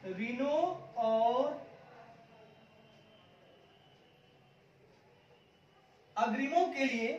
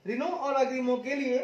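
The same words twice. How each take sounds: First: Long pauses between Reno, और and अग्रिमो के लिए; pausing dictation. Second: Said in the usual way. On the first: Shown as a demonstration. Teacher dictating the phrase to students, with long pauses.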